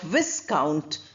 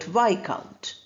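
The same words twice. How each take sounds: First: The s sound is pronounced. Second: The s sound is silent. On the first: The speaker calls it wrong. "Not Viscount" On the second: The speaker calls it right. "but Viscount"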